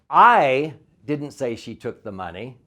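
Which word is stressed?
I. The word I is stressed.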